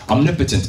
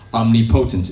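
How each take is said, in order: First: The stress is on the second syllable. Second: The stress is on the first syllable. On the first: The speaker calls it right. "pronounce it as omnipotent" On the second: The speaker calls it wrong. "instead of omnipotent"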